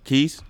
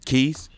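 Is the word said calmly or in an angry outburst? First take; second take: calmly; calmly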